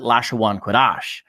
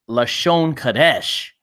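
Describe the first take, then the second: First: The first word is drawn out into three syllables. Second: The first word has two short syllables. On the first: "they pronounce it Lashawan Kodash" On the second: "Lashon Kadesh means holy tongue"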